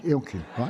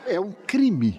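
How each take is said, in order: First: Said in the usual way. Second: A playful, laughing protest; laughing mock outrage. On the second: Real, not acted. Mock outrage over tea.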